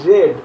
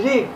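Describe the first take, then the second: First: রেড with a short e, like "red"; past-tense pronunciation. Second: রিড with a long ee, like "reed"; present-tense pronunciation. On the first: Teacher giving students the past form, রেড said like "red". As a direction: say রেড with the e vowel. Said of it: "কিন্তু উচ্চারণটা হবে". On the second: Teacher giving students the present form, রিড said with ee. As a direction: say রিড with the ee vowel. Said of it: "ক্ষেত্রে হবে রিড". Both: Shown as a demonstration.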